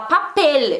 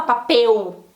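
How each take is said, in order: First: "papel" with a clear final L; right papel. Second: "papel" with the L turned to U, papeu; wrong papel. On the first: Teacher showing the correct Spanish papel. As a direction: say "papel" as written, L at the end. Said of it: "eu não vou falar papel". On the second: Teacher showing the Brazilian papel, which Spanish avoids. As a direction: say "papel" Brazilian style, ending in U. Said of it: "não vou mudar uma letra". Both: Shown as a demonstration.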